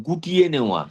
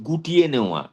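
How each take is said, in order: Both takes have the same delivery.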